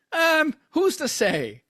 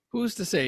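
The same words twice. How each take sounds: First: High, slow, mock-innocent; coy evasion. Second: Said in the usual way. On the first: Host coyly dodging his own podcast slip. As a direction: play dumb, drawing it out.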